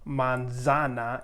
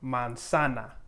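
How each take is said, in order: First: The middle consonant is a buzzing z sound. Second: The middle consonant is a hissing s sound. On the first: The speaker calls it wrong. "you wouldn't say manzana" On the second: The speaker calls it right. "you would say manzana for apple"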